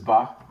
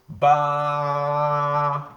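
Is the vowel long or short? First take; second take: short; long. First: The vowel is short. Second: The vowel is stretched long. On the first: The letter has no lengthening alif. "this is ba" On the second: The letter has a lengthening alif. "with the addition of alif, it becomes what? Ba. So it's like we are just stretching like that"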